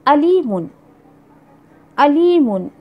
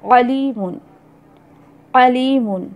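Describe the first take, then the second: First: Arabic alif in अलीमुन, no throat sound; alif alimun. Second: अलीमुन with a throaty ain at the start; ain alimun. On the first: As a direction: say अलीमुन with a plain alif opening. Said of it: "हमज़ा आप कहिए या अलिफ कहिए". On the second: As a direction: squeeze the throat on the first sound of अलीमुन. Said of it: "आइन से एक लफ्ज़ है". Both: Shown as a demonstration.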